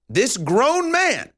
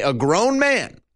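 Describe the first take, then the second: First: This grown man drawn out slow and higher, each word leaned on; slow down and lean hard on grown man; emphatic repeat, this grown man stretched out slowly; stress on grown man. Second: Said in the usual way. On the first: Pretend. Host repeats phrase with emphasis.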